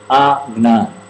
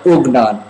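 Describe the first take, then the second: First: The first vowel is an open 'a' sound. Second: The first vowel is a short 'uh' sound. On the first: The speaker calls it wrong. "Don't say Agnan" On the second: The speaker calls it right. "like ooh, oh, like Ugnan"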